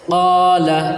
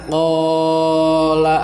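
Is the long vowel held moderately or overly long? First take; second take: moderate; overlong. First: The long vowel is held only moderately. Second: The long vowel is stretched out too long. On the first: The speaker calls it right. "jadi hanya diayunkan saja" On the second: The speaker calls it wrong. "Jangan qala. Ah, itu terlalu panjang"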